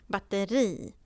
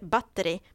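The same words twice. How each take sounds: First: The final i vowel is long. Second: The final i vowel is short. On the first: The speaker calls it right. "Med långt i" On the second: The speaker calls it wrong. "man säger inte batteri"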